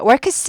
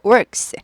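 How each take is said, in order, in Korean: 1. 이 모음은 꼬부린 r 없이 발음합니다. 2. 이 모음은 꼬부린 r을 넣어서 발음합니다. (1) "works 하지 않고" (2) "R이 있으니까 꼬부립니다"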